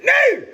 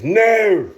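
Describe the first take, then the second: First: Very high, loud yelp with a German twist; comic Germanic yell, pitched way up; German-sounding shout. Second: High, loud Scottish shout; exclaimed loudly with a Scottish accent; Billy Connolly. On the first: Shown as a demonstration. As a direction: shriek it with a German-sounding accent. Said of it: "Which sounds more German". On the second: Retold or imitated. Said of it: "Scottish accent. He goes".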